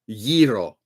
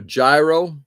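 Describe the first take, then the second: First: The word begins with a Y sound. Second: The word begins with a J sound. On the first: The speaker calls it right. "It's called a yi, yi ro, yiro" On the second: The speaker calls it wrong. "You call it a gyro, you should be promptly tossed out of the restaurant"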